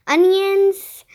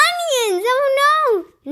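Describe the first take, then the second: First: Said in the usual way. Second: High-pitched acted cry of dismay; panicked boy's shout, much higher; alarmed shout. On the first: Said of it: "Let me see". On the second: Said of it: "Nick shouted".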